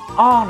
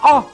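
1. Nguyên âm được giữ ở cao độ thấp. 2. Nguyên âm được giữ ở cao độ cao. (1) "để tông giúp Thoại là o này" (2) "để tông cao hơn là o"

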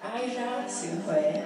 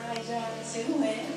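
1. Được nói bằng giọng Huế. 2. Được nói bằng giọng không phải Huế.

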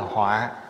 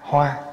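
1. Âm tiết này có thanh nặng. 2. Âm tiết này có thanh ngang. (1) "nó thành dấu dấu nặng ở dưới là họa" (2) "chữ hoa, H O A"

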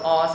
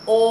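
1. Nguyên âm này mở, môi ít tròn hơn. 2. Nguyên âm này khép hơn, môi tròn. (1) "Nếu đọc O sẽ sai" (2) "đọc là O. Môi tròn này"

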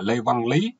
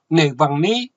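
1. Họ và tên đều bắt đầu bằng âm l. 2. Họ và tên đều bắt đầu bằng âm n. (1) "tên họ của mày là Lê Văn Lý" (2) "mày nói ngọng"

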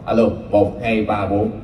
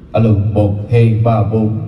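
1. Giọng phát không tăng dải hẹp. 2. Giọng phát có tăng dải hẹp. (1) "các bạn nghe tiếng mình mỏng không?" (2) "mình lên thử nha"

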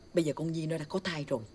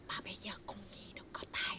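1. Câu này được nói với âm lượng vừa phải. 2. Câu này được nói rất nhỏ. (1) "Tăng lên chút phải không?" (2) "Quá nhỏ"

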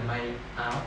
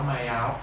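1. Nguyên âm của 'áo' bắt đầu rõ ràng và nhẹ nhàng. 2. Nguyên âm của 'áo' nối liền với từ đứng trước. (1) "nghe phát âm rõ và thật nhẹ nhàng này" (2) "hay bị dính vào từ trước"

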